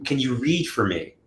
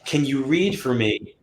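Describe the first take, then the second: First: Said in the usual way. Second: Slow, drawn-out request with hidden meaning; loaded slow request. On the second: Shown as a demonstration. Client's unspoken wish to the reader, slow and loaded. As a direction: stretch it out, hinting at what they really want. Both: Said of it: "but in their mind, they're like".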